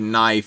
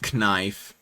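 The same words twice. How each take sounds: First: The K at the start is silent. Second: The K at the start is sounded.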